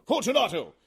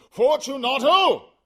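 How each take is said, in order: First: High, loud call; calling aloud. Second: Higher, louder, slower call; calling again, louder. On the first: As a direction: call into the niche. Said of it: "I called aloud". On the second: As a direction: shout the name into the dark. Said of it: "I called again". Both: Acted.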